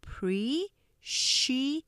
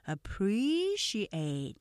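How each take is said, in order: First: "appreciate" very slowly, a pause between syllables; "appreciate" one separated syllable at a time; split into syllables. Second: "appreciate" with PRE stretched and lifted; "appreciate" slowly joined, PRE strongest; stress on second syllable. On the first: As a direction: break "appreciate" into a, pre, ci, ate. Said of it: "음절 나눠서 보시면". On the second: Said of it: "두 번째 액센트 강조돼요". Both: Shown as a demonstration.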